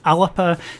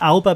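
First: A short vowel comes between the l and b. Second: No vowel comes between the l and b. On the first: The speaker calls it right. "but it's actually "Alapa."" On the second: The speaker calls it wrong. "some people assume it's pronounced "Alba,""

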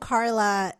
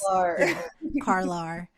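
First: The name ends on a plain vowel. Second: The name ends with an added R sound. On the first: "my cousin Carla" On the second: "is a Carlar in our part of the world"

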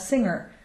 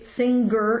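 First: The NG ends with no hard G. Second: A hard G is sounded after the NG. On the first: The speaker calls it right. "We would call someone a singer" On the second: The speaker calls it wrong. "we wouldn't say singer in English either"

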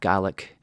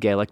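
First: The word is said the Scottish way. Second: The word is said the Irish way. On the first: "In Scotland, ... they tend to pronounce it more like that" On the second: "when they're speaking English, they pronounce it more like Gaelic"

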